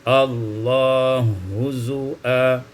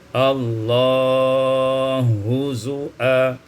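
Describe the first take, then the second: First: The vowel is held short. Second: The vowel is held medium length.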